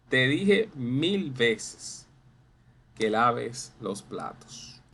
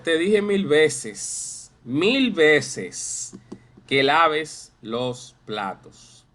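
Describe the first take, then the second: First: Said in the usual way. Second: Loud, slow exasperated scolding; drawn-out mock scolding about the dishes. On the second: Shown as a demonstration. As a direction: nag like a fed-up parent. Teacher voices scolding parent.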